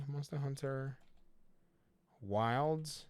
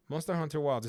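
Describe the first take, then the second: First: Softer, murmured while typing a search; quiet, searching. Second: Said in the usual way. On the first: Real, not acted. Checking the CD Keys site for the game, softer, murmured. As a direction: read it half to yourself as you search.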